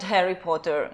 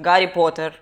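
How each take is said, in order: First: The name begins with an h sound. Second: The name begins with a g sound. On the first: "Not Harry Potter" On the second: "I'm saying Gary Potter. Because I'm Russian"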